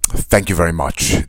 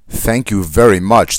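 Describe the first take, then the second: First: It sounds sarcastic and mocking. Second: It sounds sincerely appreciative.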